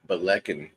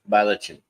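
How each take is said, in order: First: The middle consonant is a hard k sound. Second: The middle consonant is a ch sound. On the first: The speaker calls it right. "Balekin instead of Balichin" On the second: The speaker calls it wrong. "instead of Balichin"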